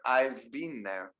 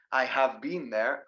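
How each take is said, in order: First: Slow "I've" as one syllable; contracted I'VE. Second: Slow "I have" as two full words; uncontracted I HAVE. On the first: Teacher modelling the better form, contracted "I've". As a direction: run I and have together as "I've". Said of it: "better to try to use the contraction". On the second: Teacher showing what to avoid, uncontracted "I have". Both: Shown as a demonstration.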